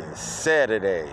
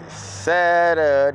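First: Said in the usual way. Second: Louder, higher, stretched-out call; rallying call to the crowd; drawn-out cheer. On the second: Real, not acted. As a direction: sing out the day, long and loud. Repeats the day as a cheer.

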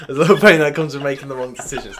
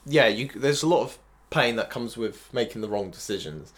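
First: "pain" stressed, louder; emphatic repeat. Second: Said in the usual way. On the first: Shown as a demonstration. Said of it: "Don't get me wrong". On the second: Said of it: "repeated more emphatically".

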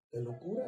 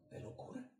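First: Said in the usual way. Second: "de locura" in a high whisper; "de locura" whispered for drama. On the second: Shown as a demonstration. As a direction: breathe "de locura" unvoiced, almost silent.

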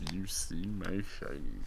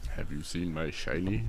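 First: Soft creature voice. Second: Low, creepy little creature asking. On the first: Testing the prompt line, soft creature voice. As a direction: coax it out quietly like a lurking thing. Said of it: "repeat of prompt". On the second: Repeating the prompt to a friend in creature voice. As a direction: mimic the gollum-like plea. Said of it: "repeats the prompt voice". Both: Shown as a demonstration.

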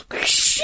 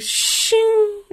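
First: Unvoiced blade swish; sword being drawn. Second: High ringing blade sound; sword being drawn. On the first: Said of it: "And he goes". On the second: Retold or imitated. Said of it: "He's like".

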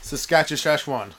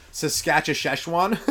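First: Saskatchewan slow with shish in the middle; shish-filled Saskatchewan again. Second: Saskatchewan drawn out slowly with shish sounds inside; shish-filled Saskatchewan. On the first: Repeating his joke Saskatchewan, slow with a shish. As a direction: say Saskatchewan slowly with a shish sound inside. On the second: Joking how Saskatchewan will sound, slow with a shish in it. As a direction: stretch Saskatchewan and slip a shish into it. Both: Shown as a demonstration. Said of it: "Saskatchewan will be like shish".

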